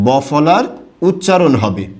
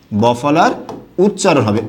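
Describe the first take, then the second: No difference in how they are said.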